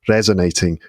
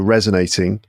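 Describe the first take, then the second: First: The R is rolled, in a Welsh accent. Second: The R is soft, in a plain English accent. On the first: "you said it like resonating with that little rhotic R" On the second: "but I'd say resonating"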